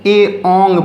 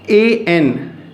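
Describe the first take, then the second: First: The second syllable is pronounced like 'ong'. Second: The second syllable is pronounced like 'en'. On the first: The speaker calls it right. "ए ओंग पढ़ेंगे" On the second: The speaker calls it wrong. "एन नहीं पढ़ेंगे"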